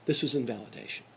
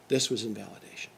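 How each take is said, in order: Both takes have the same delivery.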